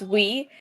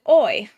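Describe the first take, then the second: First: The word sounds like "wee". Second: The word sounds like "oy". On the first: The speaker calls it right. "it's pronounced "we,"" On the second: The speaker calls it wrong. "I pronounced it "oi,""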